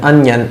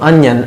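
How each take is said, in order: Both takes have the same delivery.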